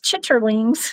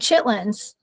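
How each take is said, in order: First: The word is said in three full syllables. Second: The word is shortened to two syllables. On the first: This is how the word is spelled. "he actually spelled it out right" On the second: This is how people actually say it. "You say chitlins"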